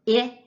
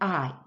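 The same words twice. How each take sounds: First: The vowel is short, as in 'it'. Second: The vowel is long, as in 'ice'. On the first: "I makes two sound" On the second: "That's a long vowel sound that the I makes"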